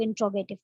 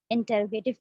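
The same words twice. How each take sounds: First: "इंट्रोगेटिव" run together as in-tro-ga-tive; contracted pronunciation. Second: "इंटरोगेटिव" said with the "टर" syllable kept; full pronunciation. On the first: Teacher shows how other people say it, "इंट्रोगेटिव" contracted to in-tro-ga-tive. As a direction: drop the vowel in "टर", saying "इंट्रोगेटिव". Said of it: "कुछ लोग इंट्रोगेटिव कहते हैं". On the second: Teacher shows how some people say it, "इंटरोगेटिव" in full with "टर". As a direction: pronounce "इंटरोगेटिव" as in-ter-ro-ga-tive. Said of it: "कुछ लोग इसे". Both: Shown as a demonstration.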